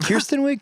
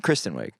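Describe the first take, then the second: First: "Kirsten Wiig" with KIR- said like Kirsten, rising high as a question; wrong name, asked. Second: "Kristen Wiig" with KRIS- said firmly, lower and falling; corrected name. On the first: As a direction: say "Kirsten Wiig" as KUR-sten, unsure and much higher. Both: Shown as a demonstration.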